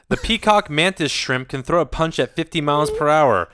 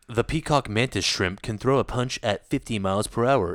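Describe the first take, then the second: First: It is read at an ordinary, brisk pace. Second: It is read slowly in a sultry voice.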